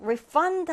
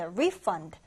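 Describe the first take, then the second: First: "refund" as a verb, stressed on FUND; light re, then punch FUND in "refund"; stress on second syllable. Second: "refund" as a noun, stressed on RE; stress on first syllable. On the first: Teacher shows the verb form, "refund" stressed at the back. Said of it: "강세를 뒤에 두고". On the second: Teacher shows the noun form, "refund" stressed at the front. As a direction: hit RE in "refund", lighter on fund. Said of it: "강세 앞에 두어서". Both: Shown as a demonstration.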